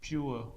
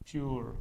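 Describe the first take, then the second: First: It ends with an added schwa glide, British style. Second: It ends without the schwa glide, American style. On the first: "if you transcribe this in British English तो इसका होगा प्योर" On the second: "अगर आप American English में देखो तो इसका transcription होगा प्योर"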